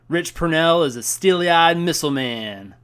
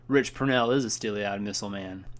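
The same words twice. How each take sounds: First: The line is said in an excited, dramatic way. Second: The line is said in a calm, composed way. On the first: The speaker calls it wrong. "They didn't say it like that" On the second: The speaker calls it right. "They keep their cool"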